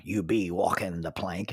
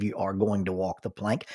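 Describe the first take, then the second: First: Low pirate-style West Country phrase; lightly put-on West Country pirate accent; West Country dialect. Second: Said in the usual way. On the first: Shown as a demonstration. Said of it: "would substitute "be" for "is". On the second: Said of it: "instead of".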